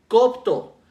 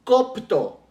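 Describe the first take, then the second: First: Copto again, louder and higher, KOP-to; stress on first O, repeated. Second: Copto, stressed on the first O, KOP-to. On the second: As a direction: say copto with weight on the first syllable. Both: Shown as a demonstration. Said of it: "con acento en la primera O".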